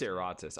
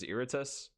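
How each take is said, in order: First: The name does not start like 'irritated'. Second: The name starts like the word 'irritated'. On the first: This is the name's correct form. The speaker calls it right. "I think it's Eratus" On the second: This is a mistaken earlier belief about the name. The speaker calls it wrong. "I always thought it was Irritus, like irritated"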